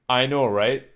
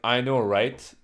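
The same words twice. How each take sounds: First: The final T of right is softened. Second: The final T of right is crisply pronounced. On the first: "Instead of saying something like" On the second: "they would pronounce T more, enunciate it more"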